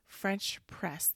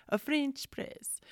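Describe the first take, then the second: First: Said in the usual way. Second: High, slow, badly faked French accent; mock French accent. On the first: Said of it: "that's not even a French accent". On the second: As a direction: draw it out in a playful fake French accent. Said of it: "that's not even a French accent, but today it is".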